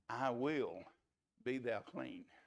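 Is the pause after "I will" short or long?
long. There is a longer pause after "will".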